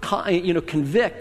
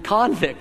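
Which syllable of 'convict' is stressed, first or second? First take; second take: second; first. First: The stress is on the second syllable. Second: The stress is on the first syllable. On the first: To find someone guilty. "the word convict" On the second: A person found guilty of a crime. "you change the emphasis around, you have the word convict"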